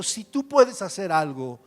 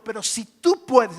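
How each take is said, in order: First: "puedes" stretched and slow; stress on puedes. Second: "tú" drawn out slow and loud; stress on tú. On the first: Preacher rereading the verse, weighing "puedes". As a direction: dwell on "puedes" in "si tú puedes hacer algo". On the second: Preacher reading to the congregation, pressing on "tú". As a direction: lean hard on "tú" in "si tú puedes". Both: Shown as a demonstration. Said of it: "escucha esto".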